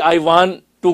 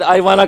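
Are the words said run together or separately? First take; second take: separately; run together. First: Each word is said fully and separately. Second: The words are blended into one reduced form.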